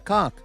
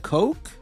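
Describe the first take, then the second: First: The vowel is a short 'ah' sound. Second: The vowel is a long 'oh' sound. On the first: "a Korean will typically say" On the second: "Do you mean a Coke?"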